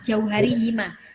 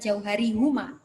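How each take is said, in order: First: The last word is said with an i vowel. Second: The last word is said with a u vowel. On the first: The speaker calls it right. "Bukan huma, jauh hari hima" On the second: The speaker calls it wrong. "bukan jauh hari huma"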